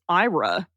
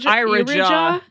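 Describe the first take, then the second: First: The name is said without a j sound. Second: The name is said with a j sound. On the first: The speaker calls it wrong. "I didn't say that right" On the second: The speaker calls it right. "I didn't see the J initially"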